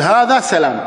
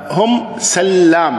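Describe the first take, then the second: First: سلام with a single short L; plain سلام with short light L. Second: سلام with a doubled, stretched L, said slowly; slow careful سلام with heavy doubled L; drawn-out سلام. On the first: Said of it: "الفظه سلام ولا تلفظه". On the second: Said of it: "الفظها سلام". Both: Shown as a demonstration.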